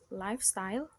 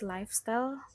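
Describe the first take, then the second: First: The word is said with a standard pronunciation. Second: The word is said with a learner's mispronunciation. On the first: The speaker calls it right. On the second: The speaker calls it wrong.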